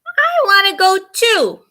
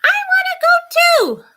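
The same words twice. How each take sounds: First: Put-on high, loud childish wail; whiny scream. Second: Much higher, loud whining scream; shrill child scream. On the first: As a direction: wail it like a little sister who wants to come along. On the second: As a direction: scream it like a furious little sister. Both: A narrator's reading. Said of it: "Sana screams".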